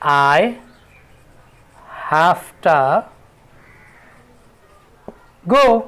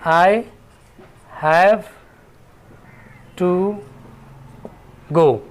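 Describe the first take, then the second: First: 'Have to' is run together as one reduced word. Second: 'Have to' is said as two full words.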